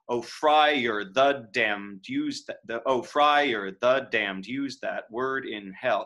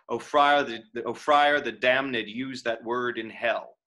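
First: Damned is said with one syllable. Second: Damned is said with two syllables. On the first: "what if I didn't? ... It's not quite right" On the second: "I'm adding an accent to damned"

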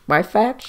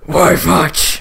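First: It is said in his normal voice. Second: It is said in a gravelly Batman voice.

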